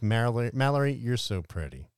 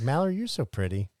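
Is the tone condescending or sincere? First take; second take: condescending; sincere. First: The compliment is said in a condescending tone. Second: The compliment is said in a sincere tone. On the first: The compliment comes across as a put-down. The speaker calls it wrong. "You were like" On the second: The compliment comes across as genuine. The speaker calls it right. "I was like"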